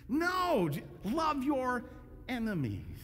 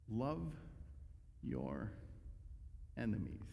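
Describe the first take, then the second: First: "love your enemies" slow, high on love; stressed love your enemies. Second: "Love", "your", "enemies" as separate, much lower and softer words; slow, hushed love your enemies. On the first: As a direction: lean hard on "love your". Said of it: "Let your enemies bring out the best". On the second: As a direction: pause between each word. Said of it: "And he says it again". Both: Shown as a demonstration.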